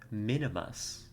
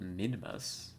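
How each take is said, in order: First: The name is said with three syllables. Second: The name is said with two syllables. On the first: "I could have sworn there was an I there, like Minimus" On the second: "Not Minimus"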